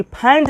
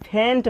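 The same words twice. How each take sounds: First: फेंट with an open "ae", like "phaent"; open-vowel "phaent" for फेंट, as the mistake; rejected open vowel. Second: फेंट with a close "ay" vowel, "phaynt"; corrected long e. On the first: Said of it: "फेंट नहीं पढ़ेंगे". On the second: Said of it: "क्या पढ़ेंगे यहाँ पर?". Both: Shown as a demonstration.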